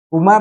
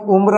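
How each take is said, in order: First: उम्र opened up to "umar"; wrong form. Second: उम्र as "umra", m and r joined; correct form. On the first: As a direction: put a vowel before the r in उम्र: "u-mar". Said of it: "उम्र नहीं". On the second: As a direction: join m to r in उम्र. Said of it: "उम्र होगा". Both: Shown as a demonstration.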